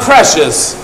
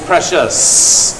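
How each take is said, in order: First: The s sound is short and ordinary. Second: The s sound is drawn out like a hiss. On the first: The speaker calls it wrong. "Not Precious" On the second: The speaker calls it right. "with a long S"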